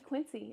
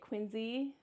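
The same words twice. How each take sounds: First: It uses a non-local pronunciation of the name. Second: It uses the local pronunciation of the name. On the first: This is how an outsider says it. "to me it's always it's going to be" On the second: This is how residents of the area say it. "people around here say it"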